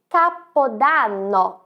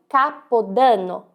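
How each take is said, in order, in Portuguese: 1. O som do A é aberto. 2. O som do A é fechado. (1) "com o som da letra A mais aberta" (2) "e não"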